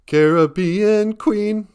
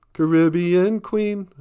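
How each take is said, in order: First: Sung high, slow and loud, CARE-uh-BEE-un; sung, [name]. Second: Sung high and slow, kuh-RIB-ee-un; sung, [name]. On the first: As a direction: sing "Caribbean" stressed on BE. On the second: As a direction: sing "Caribbean" stressed on RIB. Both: Retold or imitated. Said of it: "[name] thinks it's".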